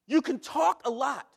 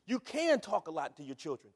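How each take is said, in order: First: Louder, pressed first saying; driving the line home; emphatic. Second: Said in the usual way. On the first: Shown as a demonstration. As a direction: push the point hard. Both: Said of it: "repeated line".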